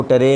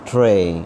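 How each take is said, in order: First: ٹرے split as ta-ray; wrong pronunciation. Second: ٹرے as one syllable, t straight into r; correct pronunciation. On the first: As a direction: put a short vowel between t and r in ٹرے. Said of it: "اس کو ٹرے نہیں پڑھنا". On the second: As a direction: model a long ٹرے with no vowel after the t. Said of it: "کوئی آواز اس پر زبر زیر پیش کی نہیں". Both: Shown as a demonstration.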